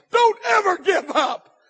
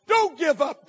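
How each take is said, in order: First: Higher, louder, slower plea; preacher pleading with the crowd; rising preaching shout. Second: Loud exhortation; preaching shout. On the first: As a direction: lean hard on every word. Repeated exhortation building. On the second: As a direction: urge them not to quit. Repeated exhortation. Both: Acted.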